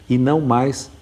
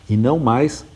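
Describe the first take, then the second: No difference in how they are said.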